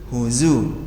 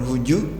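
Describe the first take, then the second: First: The middle consonant is a z sound. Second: The middle consonant is a j sound. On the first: The speaker calls it right. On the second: The speaker calls it wrong. "jangan huju ya, bukan huju"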